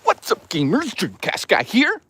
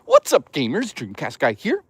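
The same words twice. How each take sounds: First: High-pitched, hyped streamer greeting; exaggerated high, drawn-out YouTuber intro; Dreamcast guy. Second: Mock YouTuber intro, lifting at the end; Dreamcast guy. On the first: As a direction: push it way up high and stretch the sign-off. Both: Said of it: "Dreamcast guy sounds like this".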